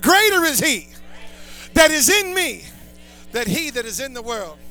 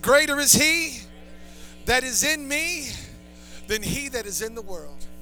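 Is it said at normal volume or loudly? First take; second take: loudly; normal. First: It is said loudly and forcefully. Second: It is said at a normal volume.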